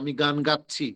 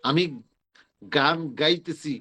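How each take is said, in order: First: The verb is said with the short standard 'chchhi' ending. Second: The verb is said with the long colloquial 'itechhi' ending. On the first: The speaker calls it right. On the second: The speaker calls it wrong.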